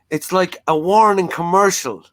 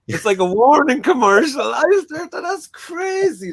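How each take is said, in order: First: Said in the usual way. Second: Robin Ince warning ad. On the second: Retold or imitated. Guest mocking a podcast guest's delivery as a warning ad. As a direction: ham it up like a TV warning commercial. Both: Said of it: "the way he said it".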